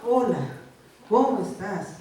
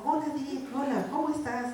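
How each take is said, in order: First: Loud, curt mock hello; hammed-up brusque greeting to an all-too-familiar spouse; long-married greeting. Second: Higher, lilting sweet hello; newlywed greeting. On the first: Spouse of thirty years in a joke, brusque greeting. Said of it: "ya llevan treinta años de casados". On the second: Acted. Newlywed greeting a spouse in a joke, sweetly. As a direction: greet your new spouse sweetly, pitched up. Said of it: "recién casados".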